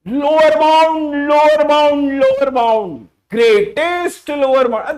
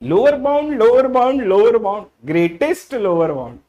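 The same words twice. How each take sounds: First: It is shouted very loudly. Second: It is said softly and gently. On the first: The speaker calls it wrong. "शैतानों की तरह चिल्लाओगे" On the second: The speaker calls it right. "प्यार से भी बोल सकते हो"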